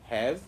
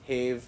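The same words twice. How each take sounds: First: The vowel is short, unlike in cave. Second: The vowel is long, like in cave. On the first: The speaker calls it right. "These are" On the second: The speaker calls it wrong. "No, it is not like that"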